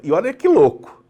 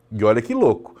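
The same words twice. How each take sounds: First: High and loud, amazed; amazed and louder; excited. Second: Said in the usual way. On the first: Real, not acted. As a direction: sell the wonder, voice up. Excited aside.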